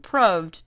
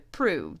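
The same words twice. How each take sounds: First: The vowel rhymes with the word 'loved'. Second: The vowel does not rhyme with 'loved'. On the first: This is how the word was said centuries ago. "The pronunciation of proved has changed in the last four hundred years, from proved" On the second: This is how the word is said today. "to proved"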